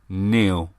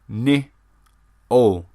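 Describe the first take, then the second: First: The name is said like Neil. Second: The name is said like Niall. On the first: This is how the owner of the name says it. The speaker calls it right. "My name is Neil" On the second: This is how most people read the spelling. The speaker calls it wrong. "Which to most common people is Niall"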